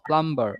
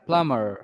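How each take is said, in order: First: A b sound is heard after the m. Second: No b sound is heard after the m. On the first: The speaker calls it wrong. "Not প্লাম্বার" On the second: The speaker calls it right. "বিটা এখানে একেবারেই আসবে না"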